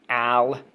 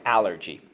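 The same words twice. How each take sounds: First: Al-ler-G said in three separate beats; split in syllables. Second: Said in the usual way. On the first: Shown as a demonstration. Teacher syllabling allergy for students to repeat. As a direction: break Al-ler-G into three parts. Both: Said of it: "So let's go".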